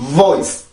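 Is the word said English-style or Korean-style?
English. It is one stressed English syllable. The speaker calls it right. "그래서 이 발음은 그렇게 발음을 해주세요"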